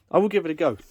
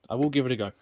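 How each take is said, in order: First: Emphatic. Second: Said in the usual way. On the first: Shown as a demonstration.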